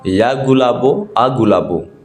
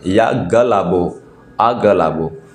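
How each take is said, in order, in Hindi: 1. नाम में पहली ध्वनि के बाद 'oo' स्वर है। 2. नाम में पहली ध्वनि के बाद 'a' स्वर है। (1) "ये नहीं है" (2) "मंत्र सही यह मंत्र है"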